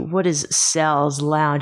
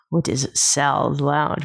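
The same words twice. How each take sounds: First: It is said in a plain voice. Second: It is said in a sultry voice.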